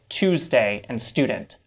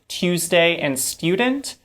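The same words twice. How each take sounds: First: No y sound follows the t and d. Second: A y sound follows the t and d. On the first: "where there's no y sound in it at all" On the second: "instead of saying"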